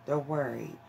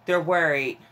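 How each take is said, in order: First: Softer and lower, letting it sink in; quieter, lower repeat. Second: Said in the usual way. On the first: Shown as a demonstration. Echoing the card's message to the viewer, softly and lower. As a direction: drop the voice for the echo.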